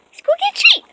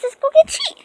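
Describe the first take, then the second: First: Very high sing-song dog voice; talking to a dog. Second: High excited dog-calling voice; talking to a dog. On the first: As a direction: coax the dogs, up high. Calling dogs, pitched higher. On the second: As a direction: coax the dogs with a treat. Calling dogs for a treat. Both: Real, not acted.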